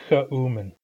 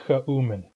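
No difference in how they are said.

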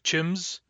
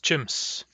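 First: The word ends with a buzzing z sound. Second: The word ends with a hissing s sound. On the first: The speaker calls it wrong. "as if it ended with a Z" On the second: The speaker calls it right. "It ends with an S"

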